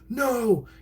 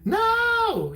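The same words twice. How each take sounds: First: The word is said forcefully and aggressively. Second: The word is said in a comic high pitch. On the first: "An aggressive no" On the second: "he had like a comedic high pitch no"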